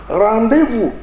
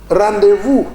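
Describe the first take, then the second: No difference in how they are said.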